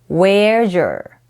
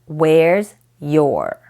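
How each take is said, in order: First: The final S and Y blend into one sound. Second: The final S and Y stay separate sounds. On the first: "blend two sounds and make them into a new sound" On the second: "Instead of"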